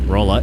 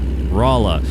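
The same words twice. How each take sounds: First: It uses the speaker's Canadian-style pronunciation. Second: It uses the local Missouri pronunciation. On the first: The speaker calls it wrong. "it's not Rolla" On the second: The speaker calls it right. "it's Rolla"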